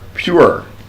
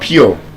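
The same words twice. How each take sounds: First: The vowel glides from 'oo' into 'uh'. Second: The vowel is a single vowel without a glide. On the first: The speaker calls it right. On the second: The speaker calls it wrong.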